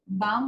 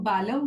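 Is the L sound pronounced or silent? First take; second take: silent; pronounced. First: The L sound is left silent. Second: The L sound is clearly pronounced. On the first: The speaker calls it right. "लेकिन यहाँ एल silent है" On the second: The speaker calls it wrong. "बालम बोलते हैं"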